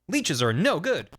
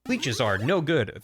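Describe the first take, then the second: First: It is said in a put-on cartoon character voice. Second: It is said in the speaker's ordinary voice.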